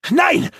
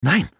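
First: High, loud outburst of denial; shouted no. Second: Short, decided no at normal volume; firm no. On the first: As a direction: yell it to drown out the truth. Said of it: "schrie Granok". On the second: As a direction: contradict calmly but firmly. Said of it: "widersprach Alana entschieden". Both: A narrator's reading.

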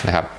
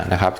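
No difference in how they are said.

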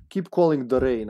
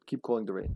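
First: Louder retake in mock Serbian accent. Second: Said in the usual way. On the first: Player repeats himself for teammates, Serbian accent. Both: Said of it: "I'm doing the Serbian accent now".

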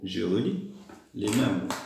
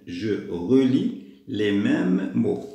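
First: Said in the usual way. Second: Very slow, drawn-out words; slow instruction reading. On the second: Shown as a demonstration. Teacher reading the task to pupils, slow and deliberate. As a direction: stretch "relis" and "mêmes", word by word.

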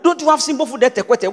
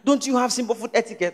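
First: Scolding, with "etiquette" said as "eh-teh-kwet"; botched version. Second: Soft, with "etiquette" said as "eh-tee-ket"; intended version. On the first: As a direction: put a "kw" into "etiquette", ending "kwet". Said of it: "She said". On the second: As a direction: say "etiquette" softly, ending in a clean "ket". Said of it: "She wanted to say". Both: Retold or imitated.

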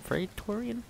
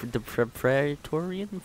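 First: "Praetorian" tried softer and higher, as a question; puzzled pronunciation attempt. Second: "Praetorian" stumbled over, slow and questioning; unsure pronunciation. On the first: Gamer imitating players guessing at a name, puzzled and tentative. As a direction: lift "Praetorian" high and quiet, testing the sound. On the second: Retold or imitated. Gamer mimicking players who couldn't pronounce it, halting and unsure. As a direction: stretch out "Praetorian", restarting on the first syllable. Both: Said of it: "no one knew how to pronounce them".

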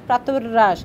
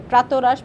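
First: প্রাতরাশ slowly, with the r after "prato" doubled; doubled sound. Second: Said in the usual way. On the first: Shown as a demonstration. Teacher showing visarga doubling to students, doubled sound. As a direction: lengthen the r in প্রাতরাশ, "prator-rash". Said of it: "বিসর্গের সাহায্যে ধ্বনির দ্বিত্ব উচ্চারণ". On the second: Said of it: "বিসর্গের সাহায্যে ধ্বনিদ্বিত্ব উচ্চারণ বোঝায়".

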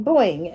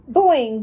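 First: Froggy boing. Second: Bouncy boing, a bit louder; spring the word up like a jump; froggy boing. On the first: Frog finishes his greeting with a landing boing. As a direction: let the second hop settle. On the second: Frog greets his new neighbor with a bouncy boing. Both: Acted. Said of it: "in my fabulous froggy way".

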